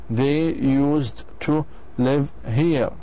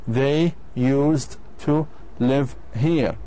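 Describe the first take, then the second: No difference in how they are said.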